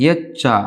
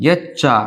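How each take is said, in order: Both takes have the same delivery.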